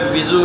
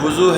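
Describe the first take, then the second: First: The first syllable has the vowel 'i'. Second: The first syllable has the vowel 'u'. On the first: "ज़ेर है" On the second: "पेश है"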